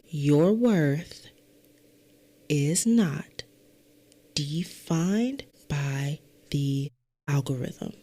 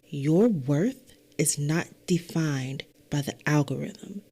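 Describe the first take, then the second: First: The sentence is spoken noticeably more slowly. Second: The sentence is spoken at a normal pace.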